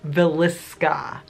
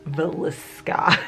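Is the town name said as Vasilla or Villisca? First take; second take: Villisca; Villisca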